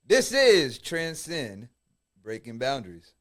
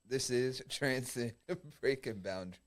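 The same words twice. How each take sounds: First: It is said forcefully, with strong energy. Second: It is said plainly, with little force. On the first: The speaker calls it right. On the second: The speaker calls it wrong.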